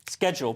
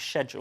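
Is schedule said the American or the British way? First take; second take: American; British. First: It is said the American way. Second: It is said the British way. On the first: "that's an Americanism" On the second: "the British way to pronounce it"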